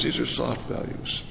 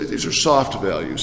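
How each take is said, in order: First: A whispered aside that lets it sink in; whispered echo. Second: Said in the usual way. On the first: Shown as a demonstration. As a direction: breathe the repeat in a hush. Repeats phrase, whispered echo.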